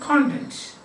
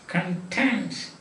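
First: The stress is on the first syllable. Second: The stress is on the second syllable. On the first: It means what is inside something. "And the other is content. What is inside the book?" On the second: It means satisfied.

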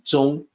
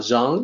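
First: The vowel does not rhyme with 'bang'. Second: The vowel rhymes with English 'bang'. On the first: The speaker calls it right. "it's Zhuang" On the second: The speaker calls it wrong. "the mistaken pronunciation of Zhang, like Bang"

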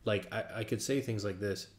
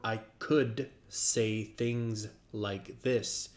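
First: The words are spoken casually, with ordinary articulation. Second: Every sound is articulated very sharply and deliberately.

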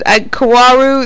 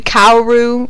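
First: The name begins with a plain 'ko' sound. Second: The name begins with a 'ka-o' sound. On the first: This is the speaker's usual way of saying it. The speaker calls it right. "that's how I usually pronounce it" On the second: This is how some other people say it. The speaker calls it wrong. "some people say Kaoru"

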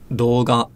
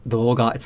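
No difference in how they are said.

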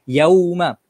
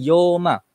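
First: The first vowel glides clearly from a to u. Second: The first vowel is one flat o sound. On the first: The speaker calls it right. "Kita kena baca dia dengan betul-betul jelas huruf-huruf dia" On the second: The speaker calls it wrong. "bukan yoma"

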